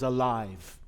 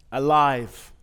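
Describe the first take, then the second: First: Said in the usual way. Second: Alive said louder, set apart and falling; a stressed one-word answer; emphatic repeat. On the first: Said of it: "what could we sign or say out loud". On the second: Acted. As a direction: land Alive with a firm, louder fall. Repeats the word as a poem beat.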